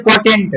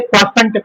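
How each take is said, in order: First: "क्वोटेंट" with a T sound, kwo-TENT; the wrong reading क्वोटेंट, hard T in the middle; mistaken pronunciation. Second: "क्वोशंट" with a SH sound, kwo-SHANT; correct pronunciation. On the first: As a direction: say क्वोटेंट with "tent" in place of "shant". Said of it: "तो क्वोटेंट नहीं होता". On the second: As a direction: say क्वोशंट with "shant", not "tent". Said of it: "ये क्वोशंट पढ़ते हैं". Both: Shown as a demonstration.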